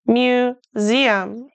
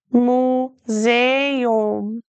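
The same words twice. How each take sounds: First: Museum said the English way, "myoo-ZEE-um", slow. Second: Museum said the German way, "moo-ZAY-oom", in three syllables. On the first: Teacher contrasting with German, English pronunciation. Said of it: "In English, we say museum". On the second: Teacher to German learner, German pronunciation. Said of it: "Museum is pronounced much differently in German". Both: Shown as a demonstration.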